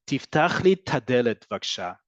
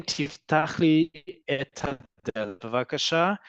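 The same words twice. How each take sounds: First: 'et hadelet' run together as 'tadelet'; elided 'et ha'. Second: Careful, drawn-out 'et hadelet bevakasha'; full unelided form. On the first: Hebrew teacher showing how people actually talk, 'tadelet' elided. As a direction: merge et and ha into one 'ta' in 'tadelet'. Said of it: "combine the et with the ha". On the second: Hebrew teacher showing the unshortened sentence, slowly and carefully. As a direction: say each word separately and slowly, 'et hadelet' kept whole. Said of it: "Instead of saying". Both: Shown as a demonstration.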